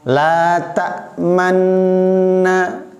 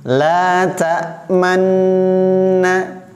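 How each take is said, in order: Both takes have the same delivery.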